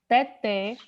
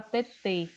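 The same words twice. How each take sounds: First: TETÉ with an open final é, as in "bet"; open vowel. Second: TETÊ with a closed final ê; closed vowel. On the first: Teacher contrasting two example words, open final vowel on teté. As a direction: say "teté" ending on a wide open eh. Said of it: "ele dá o som aberto". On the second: Teacher contrasting two example words, closed final vowel on tetê. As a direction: say "tetê" ending on a tight, closed eh, toward "ay". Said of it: "ele dá o som fechado". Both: Shown as a demonstration.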